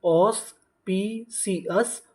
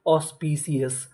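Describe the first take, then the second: First: auspicious stretched out very slowly with a rising end; slow drawn-out model word. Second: Said in the usual way. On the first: Shown as a demonstration. Teacher to students, slowly modelling auspicious with a rise. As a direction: draw out auspicious syllable by syllable, rising. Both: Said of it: "तो पूरी meaning क्या बनी?".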